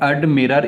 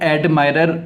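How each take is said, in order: First: The middle vowel sounds like short 'i'. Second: The middle vowel sounds like 'eye'. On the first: The speaker calls it right. "इसका जो सही उच्चारण आता है एडमिरर" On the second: The speaker calls it wrong. "इसको हम अधिकतर लोग एडमायरर करते हैं"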